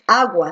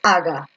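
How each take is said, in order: First: The U sound is clearly pronounced. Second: The U sound is left out. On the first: The speaker calls it right. "tú dices agua, sí" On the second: The speaker calls it wrong. "O tú dices aga"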